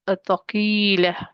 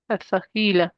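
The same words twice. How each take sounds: First: Al-thaqila slowly and deliberately, each syllable spelled out; al-thaqila drawn out with a full final fall; careful Arabic term. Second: Said in the usual way. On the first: Shown as a demonstration. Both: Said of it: "noon is called noon tawqid".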